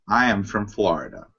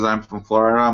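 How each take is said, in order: First: It is read slowly and carefully. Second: It is read hurriedly, as if skimming. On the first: The speaker calls it right. "That's a good reading voice" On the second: The speaker calls it wrong. "you're saying it in a way that makes me sound like you're skimming through it"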